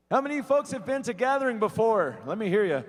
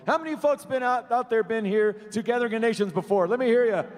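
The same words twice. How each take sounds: First: Crowd call-out. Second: Much higher, louder hype call; louder crowd call-out. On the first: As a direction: pump up the audience. Emcee rallying the crowd. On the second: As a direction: really fire up the crowd. Emcee asks crowd again, louder. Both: Real, not acted.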